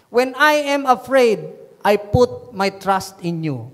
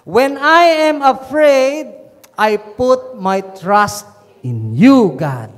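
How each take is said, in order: First: Slow, measured verse reading; measured first reading of a psalm; scripture reading. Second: Emphatic scripture repeat. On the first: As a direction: read the verse out slowly and deliberately. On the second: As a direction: repeat the verse forcefully, stretching each phrase. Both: Real, not acted. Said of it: "Pwede bang ulitin natin tong psalm".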